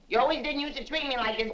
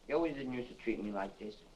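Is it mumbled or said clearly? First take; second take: clearly; mumbled. First: It is said clearly and loudly. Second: It is mumbled quietly and indistinctly.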